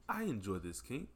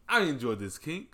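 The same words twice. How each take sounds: First: It is said in a plain, casual way. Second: It is said boldly, with full confidence.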